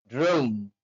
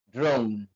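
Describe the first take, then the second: Both takes have the same delivery.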